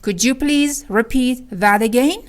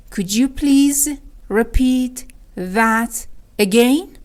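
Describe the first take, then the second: First: Said in the usual way. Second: Slow repeat with long gaps; word by word. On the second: Shown as a demonstration. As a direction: piece out "repeat ... that ... again" for learners. (شمرده، کلمه به کلمه)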